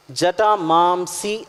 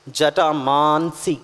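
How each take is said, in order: First: జటామాంసి said slowly with a long "maam", the common misreading; slow, deliberate wrong reading of జటామాంసి; wrong pronunciation. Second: జటామాంసి drawn out very slowly, ending "mansi" with an n; a teacher modelling జటామాంసి syllable by syllable; correct pronunciation. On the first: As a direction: say జటామాంసి the way people wrongly read it, like meat. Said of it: "జటామాంసి అని పలకకూడదు". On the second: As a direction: spell out జటామాంసి carefully so it ends in "mansi". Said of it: "మాన్సి అని చదవాలి". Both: Shown as a demonstration.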